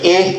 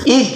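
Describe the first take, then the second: First: The vowel is tilted toward an 'e' sound. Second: The vowel is a clear 'i' sound. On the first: The speaker calls it wrong. "ih menjadi eh" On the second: The speaker calls it right. "jangan kamu miringkan imalahnya"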